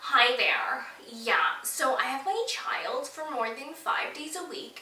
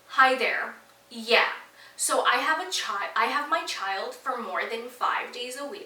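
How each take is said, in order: First: It is said in an imitation of the neighbor's voice. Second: It is said in the speaker's own voice.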